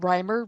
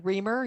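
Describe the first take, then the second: First: The first syllable sounds like 'rye'. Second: The first syllable sounds like 'ree'. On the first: The speaker calls it right. "Only if you pronounce it right" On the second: The speaker calls it wrong. "If you're a telemarketer and you say Reamer, you don't get the joke"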